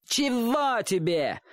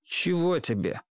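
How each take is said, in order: First: High, dragged-out taunting echo; slow, jeering imitation way up high; mocking mimicry. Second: Said in the usual way. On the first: A narrator's reading. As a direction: parrot it back in a whiny boyish singsong. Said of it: "передразнил его мальчишка". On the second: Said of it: "спросил Чик".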